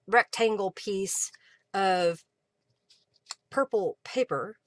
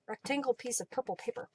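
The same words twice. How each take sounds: First: The phrase is said at a normal pace. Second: The phrase is said very quickly.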